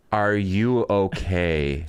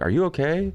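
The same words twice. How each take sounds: First: Slow, drawn-out question at normal pitch; insistent concerned girl. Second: Quick, high rising question; concerned bystanders. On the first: Girl checking on the injured cyclist, slow deliberate concern. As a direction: stretch each word, imitating a worried onlooker. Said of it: "And then some girl's like". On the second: Bystanders asking the fallen cyclist, higher-pitched rising concern. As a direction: imitate passers-by checking on someone. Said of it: "people were like". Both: Retold or imitated.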